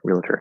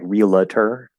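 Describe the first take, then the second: First: The word is said very quickly and short. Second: The word is said slowly and drawn out. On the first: The speaker calls it right. "It has to be very, very fast" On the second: The speaker calls it wrong. "You're not saying like realtor"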